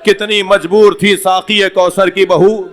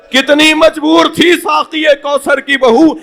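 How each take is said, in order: First: Said in the usual way. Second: Wailing cry. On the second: Acted. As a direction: lament it at full voice, breaking upward. The same couplet line repeated at a climax.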